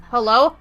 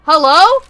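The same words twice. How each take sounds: First: Said in the usual way. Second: Louder, higher call. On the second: Real, not acted. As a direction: call out across the room. Calling out louder.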